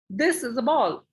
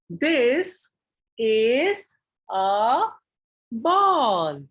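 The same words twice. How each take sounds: First: It is read straight through without pauses. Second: It is read with deliberate pauses between words. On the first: The reader is not engaging with the child. The speaker calls it wrong. "I'm just reading few words and I'm not even paying attention to the child" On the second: The reading engages the child more. The speaker calls it right. "I am taking certain pauses here"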